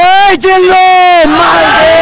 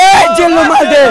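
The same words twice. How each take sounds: First: Quoting the film's gangster line with a raised, slightly louder voice; movie gangster line. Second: Lighter second take of the gangster line; movie gangster line. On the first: Fan repeats the film dialogue for the crowd, mock gangster voice. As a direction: deliver it like the gangster hero calling his man. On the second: Fan repeats the film dialogue a second time, lighter gangster voice. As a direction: say it again a bit closer to his own voice. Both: Retold or imitated. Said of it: "সবাই একসাথে বলবেন".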